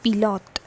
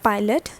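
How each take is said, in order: First: It is pronounced like the French word. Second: It is pronounced like the English word. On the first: The speaker calls it right. "this is pilot" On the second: The speaker calls it wrong. "This is not pilot"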